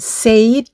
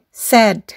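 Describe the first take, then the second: First: The vowel glides toward an 'ee' sound. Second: The vowel is short with no 'ee' glide. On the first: The speaker calls it wrong. "bukan said" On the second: The speaker calls it right. "i-nya tidak diucapkan"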